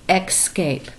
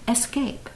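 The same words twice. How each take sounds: First: The word begins with an x sound. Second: The word begins with a plain s sound. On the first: The speaker calls it wrong. "for some reason we think there has to be a little X in there" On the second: The speaker calls it right. "But it's just escape. No X"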